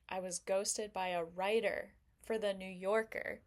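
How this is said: It is said in a quietly boastful tone. Being ghosted is a hidden brag. "kind of sounds like I'm humble bragging"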